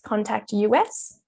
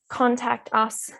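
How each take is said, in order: First: "Us" is spelled out as two letters. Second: "Us" is said as one ordinary word. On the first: "written in all caps actually reads contact U S" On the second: "the word contact us"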